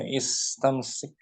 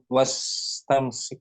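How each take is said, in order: First: The opening vowel 'i' is clearly pronounced. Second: The opening vowel is dropped and linked to 'wa'. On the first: The word begins the sentence. "di awal dibaca istamsik" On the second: The word comes in the middle of the sentence. "Jika di tengah nggak di nggak dibaca was tamsik"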